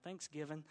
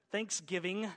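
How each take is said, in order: First: Said in the usual way. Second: Thanksgiving louder in an Oklahoma twang, rising at the end; Oklahoma accent. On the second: Shown as a demonstration. Preacher shows the congregation his Oklahoma accent, louder. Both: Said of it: "that was my Oklahoma accent coming out".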